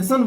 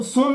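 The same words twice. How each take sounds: First: सन with a short open uh; teacher's model सन, short vowel. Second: सोन said with an o sound; सोन as the mistaken o pronunciation; wrong o vowel. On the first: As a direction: say सन with uh instead of o. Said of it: "सन बोलते, आ का उच्चारण". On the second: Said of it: "सोन नहीं बोलते". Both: Shown as a demonstration.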